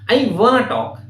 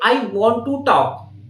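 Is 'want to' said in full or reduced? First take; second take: reduced; full. First: 'Want to' is reduced to 'wanna'. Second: 'Want to' is said fully as two words. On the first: The speaker calls it right. "native speakers, I wanna talk" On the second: The speaker calls it wrong. "they are not going to say, I want to talk"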